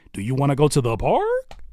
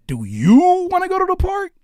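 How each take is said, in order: First: Said in the usual way. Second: "park" in a much higher, louder, sing-song voice; high, loud emphasis demo. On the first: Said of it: "it changes the entire context". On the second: Shown as a demonstration. Coach showing how emphasis changes a question, pitched way up. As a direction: push the whole line way up high and loud. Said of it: "it changes the emphasis".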